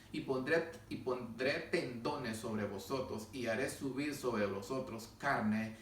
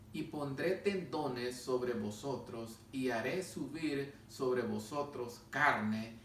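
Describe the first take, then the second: No difference in how they are said.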